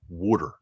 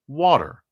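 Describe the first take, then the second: First: It is said in a Philadelphia accent. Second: It is said in a general American accent.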